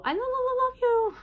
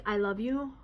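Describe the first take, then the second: First: Very high stuttering sing-out of "love you"; weird echolalic repeat. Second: Said in the usual way. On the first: Shown as a demonstration. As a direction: repeat the syllable high and loud, then release. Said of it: "I say it weirdly". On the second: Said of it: "I only do it with, um, certain words".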